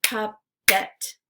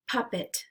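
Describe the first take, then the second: First: "Puppet" as two separate beats, Pup – pet; syllables split apart. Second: Said in the usual way. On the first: Shown as a demonstration. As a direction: say "Puppet" syllable by syllable, pausing between. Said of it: "break it into the syllables". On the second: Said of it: "repeat the word".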